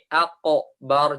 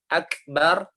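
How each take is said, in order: First: The middle consonant is a deep q sound. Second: The middle consonant is a front k sound. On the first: The speaker calls it wrong. "jadi qaf" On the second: The speaker calls it right.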